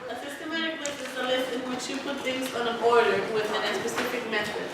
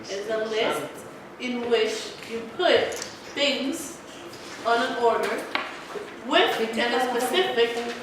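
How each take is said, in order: First: It is said at normal speed. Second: It is said more slowly.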